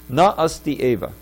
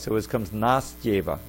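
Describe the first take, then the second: First: The three words are said separately. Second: The words blend into one, with a y sound.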